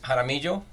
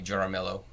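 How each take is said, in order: First: The name is said with a Spanish pronunciation. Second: The name is said with an English pronunciation. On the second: "most people say Jaramillo"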